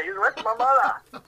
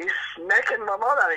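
First: High and slowed, laughing as he fixes the word; giggling it out. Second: High, laughing through the words; can't hold back the laugh. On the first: Son fixing his joke to the pub crowd, laughing. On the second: Son telling the pub joke on his dad, laughing. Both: Real, not acted.

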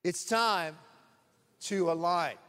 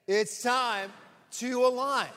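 First: Said in the usual way. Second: Rousing call-and-response, pushed up; louder, higher repeat. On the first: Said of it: "let's say that together". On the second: Shown as a demonstration. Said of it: "Let's say it again".

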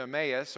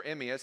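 First: Emmaus said as eh-MAY-us; Emmaus, first of two pronunciations; alternate pronunciation. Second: Emmaus said as EM-ee-us; Emmaus, second of two pronunciations; alternate pronunciation. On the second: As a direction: say Emmaus with an EE in the middle. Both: Shown as a demonstration. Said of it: "however you may pronounce it".

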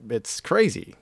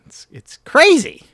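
First: Said in the usual way. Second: High, loud, hammed-up crazy; exaggerated excitement. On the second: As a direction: blow it up, way higher and louder. Says it, then repeats it bigger.

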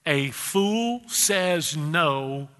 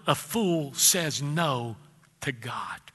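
First: Stretched out slowly, NO held long; real slow. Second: Drawn out slowly, word by word. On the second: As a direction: lean on each word, slow and low. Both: Shown as a demonstration. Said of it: "I'm gonna say that real slow".

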